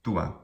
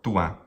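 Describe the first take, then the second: First: The first vowel is quick and short. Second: The first vowel is quick and short.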